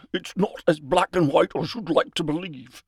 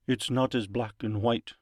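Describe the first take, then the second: First: Higher, louder put-on character voice; theatrical, raised-voice line read; in-character retort. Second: Said in the usual way. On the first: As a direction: deliver the line pitched up and pushed. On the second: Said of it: "why do I have the not like that".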